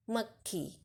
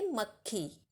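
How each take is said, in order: First: मक्खी repeated softly, short क then a long ख; repeated model. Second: मक्खी said softly, short क leaning into a long ख; model pronunciation. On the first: Teacher repeats मक्खी for the class. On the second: Teacher models मक्खी for children. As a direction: say मक्खी clearly for the class to copy. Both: Shown as a demonstration. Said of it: "और उच्चारण कैसे करेंगे?".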